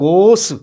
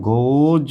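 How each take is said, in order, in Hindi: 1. शब्द का अंत 's' ध्वनि से होता है। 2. शब्द का अंत 'z' ध्वनि से होता है। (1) "इस तरह नहीं पढ़ेंगे कि रन्स या गोस, तो बिल्कुल गलत है" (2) "यानी यहाँ पर भी ये जे आया"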